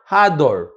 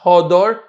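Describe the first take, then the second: First: The first vowel sounds like 'a'. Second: The first vowel sounds like 'o'. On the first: The word means that it lives. The speaker calls it right. "Read it with a with a patach" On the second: The word means beauty. The speaker calls it wrong. "Not hodor. Don't read it beauty"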